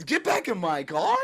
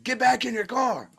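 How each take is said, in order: First: A rising, disbelieving repeat; incredulous echo. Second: High, strained imitation of the cop barking an order; mock the officer, pitched way up. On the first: Retold or imitated. He repeats the cop's order back, incredulous. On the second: Cop orders him back into his car, mocked high.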